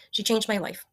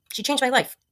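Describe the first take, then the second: First: Said in the usual way. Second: Teary-eyed. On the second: Real, not acted. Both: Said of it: "I'm gonna start getting teary-eyed here".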